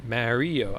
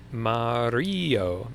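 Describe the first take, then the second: First: "Mario" starting like "marry"; flat-a Mario. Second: "Mario" drawn out with an ah, rising mid-word; open-a Mario. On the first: Confused streamer comparing his own way, MARRY-o. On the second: Confused streamer testing how to say it, slow MAH-ree-o. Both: Shown as a demonstration. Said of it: "questioning the way I say everything".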